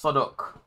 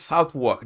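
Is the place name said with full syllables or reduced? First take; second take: reduced; full. First: Both syllables are reduced, like 'suthuk'. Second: Both syllables are full, like 'south walk'. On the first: The speaker calls it right. "It's Sodok Council" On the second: The speaker calls it wrong. "The first time I heard it, I was like, I'm going to Southwark. They're like, ha ha ha, you loser"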